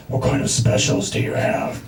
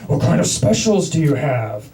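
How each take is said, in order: First: Low whispery Batman growl. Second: A lightly laughing Batman rasp. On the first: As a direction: rasp it like a caped vigilante. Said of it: "the Batman voice". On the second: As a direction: growl back as Batman, half laughing. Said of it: "doing the Batman voice right back". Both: Retold or imitated.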